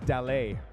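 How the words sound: It is said in a French accent.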